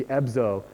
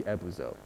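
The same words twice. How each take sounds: First: "ebzo" with B straight into Z; no middle U. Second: "ebuzo" with an oo after the B; middle U sounded. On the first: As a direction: say "ebzo" as two syllables, eb-zo. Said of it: "they wouldn't really hear it". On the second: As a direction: say "ebuzo" as three syllables, eh-boo-zo. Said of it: "like, a tiny U". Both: Shown as a demonstration.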